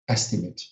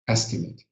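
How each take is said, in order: First: The final syllable sounds like 'it'. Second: The final syllable sounds like 'it'.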